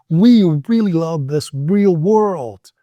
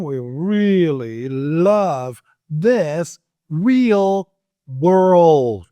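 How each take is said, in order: First: Slowish, each r and l placed; careful drill sentence. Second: "We really love this real world" stretched out very slowly. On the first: Teacher modeling the tongue twister with care. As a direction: articulate every r and l carefully. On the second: Teacher slowing right down after saying slow down. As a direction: crawl through it word by word. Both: Shown as a demonstration. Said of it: "Slow down".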